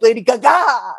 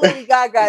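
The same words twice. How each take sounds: First: It is said in an exaggerated put-on voice. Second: It is said in a plain, normal voice. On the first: "it's [name]" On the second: "it is not Lady Gaga"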